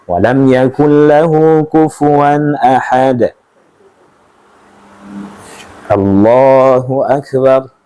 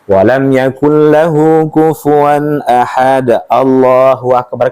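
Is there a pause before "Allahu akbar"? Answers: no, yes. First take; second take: yes; no. First: A brief pause comes before the next phrase. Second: It runs straight into the next phrase without pausing. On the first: The speaker calls it right. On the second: The speaker calls it wrong. "Kan ada orang yang langsung seperti itu"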